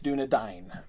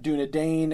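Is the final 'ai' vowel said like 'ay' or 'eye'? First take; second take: eye; ay. First: The 'ai' vowel sounds like 'eye'. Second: The 'ai' vowel sounds like 'ay'. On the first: The speaker calls it right. "it's Dúnedain. Because that's the diphthong" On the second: The speaker calls it wrong. "that's not Dúnedain"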